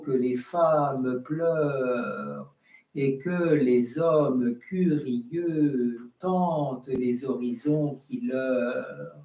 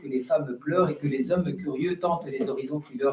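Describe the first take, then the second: First: Syllables are read with clear long-short contrast. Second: Syllables are read without marked long-short contrast.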